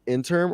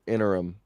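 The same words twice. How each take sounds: First: "interim" squeezed to IN-term; two-syllable interim. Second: "interim" with a silent T, IN-er-im; three-syllable interim. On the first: Reader asking co-host how it is said, "interim" as IN-term. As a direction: say "interim" as IN-term, dropping the middle vowel. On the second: Reader offering co-host the other option, "interim" as IN-er-um. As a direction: say "interim" as IN-er-um, no T sound. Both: Shown as a demonstration. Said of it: "is it interim or".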